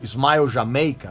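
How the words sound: It is said with an English pronunciation.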